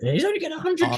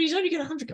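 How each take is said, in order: First: It is said in an American accent. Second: It is said in a non-American accent. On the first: The speaker calls it right. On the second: The speaker calls it wrong.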